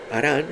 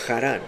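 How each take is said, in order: First: It begins with a light breathy sound. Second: It begins with a raspy throat sound. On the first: It names the son. "es con H" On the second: It names the city. "con J"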